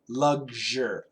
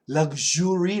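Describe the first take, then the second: First: The middle is said with a voiced 'gzh'. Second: The middle is not said with a voiced 'gzh'. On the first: The speaker calls it right. "American pronunciation, it's like L U G, lug, and then a Z H, zher" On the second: The speaker calls it wrong.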